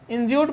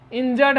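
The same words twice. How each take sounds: First: इंज्यूर्ड misread as spelt, with a long "yoo"; common mispronunciation of इंज्यूर्ड. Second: Short "uh" in the second syllable of इंजर्ड; इंजर्ड with no "yoo" sound, just "jurd"; correct pronunciation of इंजर्ड. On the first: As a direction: say इंज्यूर्ड with a "yoo" sound in the second syllable. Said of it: "बहुत सारे लोग इसको इंज्यूर्ड पढ़ते हैं". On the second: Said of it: "इसका सही उच्चारण इंजर्ड है". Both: Shown as a demonstration.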